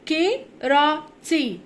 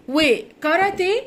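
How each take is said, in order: First: كيراتي broken slowly into "ke-ra-ti"; English pronunciation. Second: Said in the usual way. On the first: Shown as a demonstration. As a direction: say كيراتي the English way, ending in "tee". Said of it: "وكاراتيه بننطقها كيراتي". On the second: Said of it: "بننطقها كيراتي".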